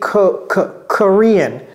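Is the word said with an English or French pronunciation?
English. The word is said with an English pronunciation. The speaker calls it right. "J'ai dit Korean"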